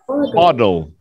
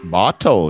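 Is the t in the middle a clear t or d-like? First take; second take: d-like; clear t. First: The middle t sounds like a d. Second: The middle t is a clear t.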